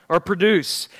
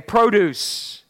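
First: Produce with a short "pruh" and stress on DUCE, the verb. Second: Produce with a long "proh" first syllable, like fruit at the store; PROH-duce. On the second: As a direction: say Produce as the noun, stress on PRO. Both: Shown as a demonstration. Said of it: "And you know what's interesting?".

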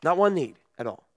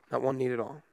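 First: Said in the usual way. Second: Repeated much softer and lower, sinking; quiet repeat. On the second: Shown as a demonstration. Pastor lets the repeat fade for the congregation, hushed. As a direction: let the phrase fall away to a hush.

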